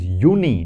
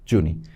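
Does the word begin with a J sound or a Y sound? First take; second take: Y sound; J sound. First: The word begins with a Y sound. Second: The word begins with a J sound. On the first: The speaker calls it right. "J is pronounced as Y in German. So that is Juni" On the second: The speaker calls it wrong. "not Juni"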